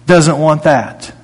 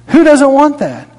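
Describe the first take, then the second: First: Said in the usual way. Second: High, insistent. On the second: Acted. Repeated rhetorical question, preached harder.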